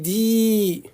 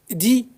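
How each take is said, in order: First: The vowel is held long. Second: The vowel is said short. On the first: "ça allonge davantage le même son" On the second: "le del est kasra seul"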